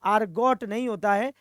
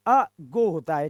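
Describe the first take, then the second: First: "argot" को पूरा आर और टी के साथ बोला गया; "argot" with r and t fully sounded; wrong pronunciation argot. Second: "ago" said lower, slower, r and t dropped; "ago" साफ़ धीमे, आर-टी बिना; right pronunciation ago. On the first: ("argot" गलत उच्चारण, आर और टी के साथ) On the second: (सही उच्चारण "ago", धीमा और नीचा) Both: Shown as a demonstration.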